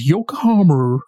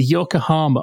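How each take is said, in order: First: "Yokohama" ending in a big "-er", like "Yokohamer"; overdone American R. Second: Said in the usual way. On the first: Retold or imitated. Mimicking a British actor's American accent, "Yokohama" with overdone final R. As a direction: hammer a false R onto the end of "Yokohama". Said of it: "they overdo it. And Don does it". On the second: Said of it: "Yokohama is like, you know, it's a Japanese name".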